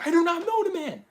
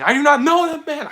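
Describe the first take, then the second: First: Higher, strained repeat; repeated denial. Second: Higher, louder insistent denial; Peter's denial. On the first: Peter denying Jesus again, higher and strained. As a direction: push the denial higher, pleading. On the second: Peter denying Jesus, high and insistent. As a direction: deny it hard and fast. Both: Retold or imitated. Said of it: "Peter was, like, saying".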